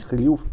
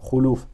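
First: No vowel follows the first consonant. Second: A u vowel follows the first consonant. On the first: The speaker calls it wrong. "и не хлюф" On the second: The speaker calls it right. "а хулюф"

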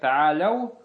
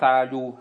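First: The word ends with an 'ow' diphthong after 'la'. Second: The word ends with a plain 'oo' sound. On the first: The speaker calls it right. "а как та'аляу" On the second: The speaker calls it wrong. "не сказал та'алю"

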